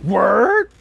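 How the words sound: It is said as a doubtful, questioning exclamation. The speaker asks if the other is serious. "especially how you enunciate it. Like word? That means like you serious?"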